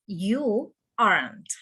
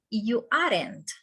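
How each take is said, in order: First: "aren't" as one drawn-out syllable, "arnt"; correct pronunciation. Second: "aren't" split into two syllables, "are-ent"; wrong pronunciation. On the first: Teacher correcting students, "aren't" slowly in one syllable. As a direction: slowly model "aren't" with no vowel before the nt. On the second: Teacher showing students what not to say, "aren't" wrongly in two syllables. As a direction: say "aren't" wrongly with an extra vowel before the nt. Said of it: "We don't say". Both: Shown as a demonstration.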